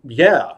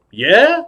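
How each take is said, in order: First: Said in the usual way. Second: High, sharply rising question; doubting star. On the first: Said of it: "I said". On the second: Acted. Star doubts the clown really does magic, high rising query. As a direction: swoop right up on it. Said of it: "He said".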